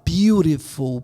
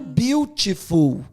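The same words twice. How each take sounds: First: The middle consonant is a quick tapped r. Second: The middle consonant is a clear t sound. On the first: "eu vou falar beautiful, porque o T está entre o U e o I" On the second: "eu escrevo beautiful"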